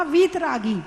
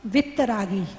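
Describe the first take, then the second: First: वीतरागी with a long, held "ee" in वीत; long vowel. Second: वित्तरागी with a short "i" and doubled t; short vowel punchline. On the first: Teacher naming what God is called, वीतरागी with long "ee". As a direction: say वीतरागी with long "vee" and a single t. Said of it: "भगवान को कहा वीतरागी". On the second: Teacher's pun on the devotees, वित्तरागी with short "vit-ta". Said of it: "और उनके भक्त कैसे हैं?". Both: Shown as a demonstration.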